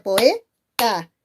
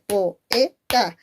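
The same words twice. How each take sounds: First: "poeta" in two syllables, "poe" then "ta"; diphthong reading. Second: "poeta" in three syllables, "po", "e", "ta"; separated hiatus. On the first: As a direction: run o and e together in "poeta", then "ta". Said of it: "¿Por qué no puede ser poeta?". ("poeta" en dos sílabas: "poe", "ta") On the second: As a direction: split o from e in "poeta", a beat on each. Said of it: "por qué tiene que ser". ("poeta" en tres sílabas separadas: "po", "e", "ta") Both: Shown as a demonstration.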